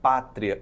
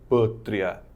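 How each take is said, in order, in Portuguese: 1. A vogal tônica é pronunciada aberta. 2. A vogal tônica é pronunciada fechada. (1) "o acento agudo para dizer que a palavra é aberta" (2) "e não pátria"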